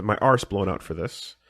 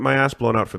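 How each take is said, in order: First: "arse" with a long British ah; "arse" in place of American "ass". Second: Said in the usual way. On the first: Shown as a demonstration. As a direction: say "arse" the British way, drawn-out vowel. Redoes the word as British arse.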